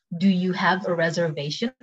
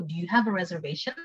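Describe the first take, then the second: First: Slower, carefully spaced words; measured teaching pronunciation; slow take. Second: Quicker, conversational reading; casual quick model phrase; quick take. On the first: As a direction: model it slowly for learners. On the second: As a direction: say it at everyday speed. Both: Shown as a demonstration. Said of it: "cepet sama pelan".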